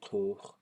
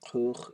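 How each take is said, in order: First: The vowel is long with a high pitch. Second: The vowel is long with a low pitch. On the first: "Here it's long and high" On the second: "here it's long and low"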